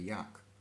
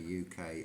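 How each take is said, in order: First: It is spoken as a single word. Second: Each letter is spoken separately. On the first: "or you can say yuck" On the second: "two ways of saying these country abbreviations"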